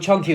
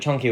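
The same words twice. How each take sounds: First: The first vowel sounds like 'uh'. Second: The first vowel sounds like 'oh'. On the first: "chunky with a U" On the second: "chunky with an O"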